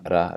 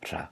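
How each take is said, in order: First: The R is voiced, with vibrating vocal cords. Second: The R is voiceless, without vibrating vocal cords. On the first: "It's making that same ra" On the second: "but without our vocal cords vibrating. So it's ra"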